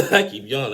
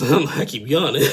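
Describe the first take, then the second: First: Real laugh, words rushed fast; quicker laughing repeat. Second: Real laugh through a yawn. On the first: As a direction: say it again fast while laughing. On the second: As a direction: laugh sleepily through the words. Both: Real, not acted.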